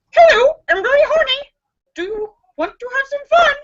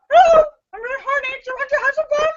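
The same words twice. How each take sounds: First: High, fast squawking parrot voice; shrill-free bird squawk, pitched way up; squawky parrot. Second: High, very fast squawking parrot voice; pitched way up, rushed bird chatter; squawky parrot. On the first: Female parrot squawking a come-on. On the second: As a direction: rattle it off like a parrot on repeat. Parrot repeats its come-on. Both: Acted.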